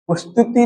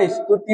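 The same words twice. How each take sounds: First: स्तुति said "ustuti", u in front; wrong form. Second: स्तुति said "istuti", i in front; correct form. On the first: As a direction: start स्तुति on "us". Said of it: "स्तुति नहीं होगा". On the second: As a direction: start स्तुति on a light "is". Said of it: "स्तुति होगा". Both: Shown as a demonstration.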